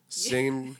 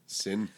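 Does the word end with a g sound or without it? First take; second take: with g; without g. First: The word ends with the full ng sound. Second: The word ends with a plain n sound. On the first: "You don't say it in sing" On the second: "You drop the G"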